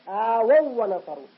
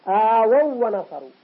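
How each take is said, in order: No difference in how they are said.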